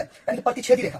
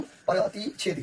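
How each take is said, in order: First: Said in the usual way. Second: प्रतिच्छेदी drawn out syllable by syllable, slow and even; slow dictation. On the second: Shown as a demonstration. Teacher to class, spelling out प्रतिच्छेदी slowly. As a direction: say प्रतिच्छेदी slowly, as if writing it on the board. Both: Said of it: "Hindi में भी मैं लिख देता हूँ".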